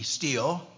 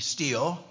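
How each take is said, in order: First: The word sounds exactly like 'steel'. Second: The same.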